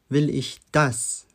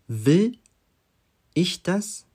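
First: The stress is on "das". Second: The stress is on "will".

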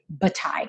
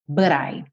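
First: The t is clearly pronounced, British style. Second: The t is flapped, American style.

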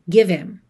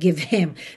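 First: The h of him is dropped and linked. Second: The h of him has a strong burst of air. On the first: "Pode soar give him" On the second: "Sabe ter esse ataque de ar?"

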